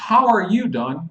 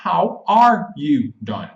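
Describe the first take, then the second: First: Said in the usual way. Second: "How are you, Don?" slowly, word by word; slow demo with "are" as a full word; slow clarification. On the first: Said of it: "Como eu escrevo pros meus amigos". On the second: Shown as a demonstration. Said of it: "o que que eu quero dizer".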